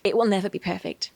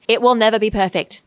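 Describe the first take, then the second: First: Said in the usual way. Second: Loud, forceful declaration, every word leaned on; emphatic. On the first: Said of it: "No, that wasn't aggressive". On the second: Real, not acted. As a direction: drive home "It will never be perfect" hard. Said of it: "can't say this with enough emphasis".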